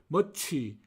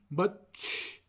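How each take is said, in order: First: It ends with an added vowel sound. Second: It ends on a bare consonant sound. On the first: The speaker calls it wrong. "흔히들 멋취, 멋취라고 그러는데요" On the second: The speaker calls it right. "실제로는 멋취, 멋취 어, 이와 같이 발음하여서 이 어, 모음 발음을 하지 말아야 합니다"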